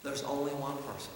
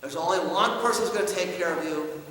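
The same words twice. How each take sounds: First: Quiet emphatic repeat. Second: Said in the usual way. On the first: Retold or imitated. Father at the mirror, hushed emphatic words. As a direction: let the words sink in.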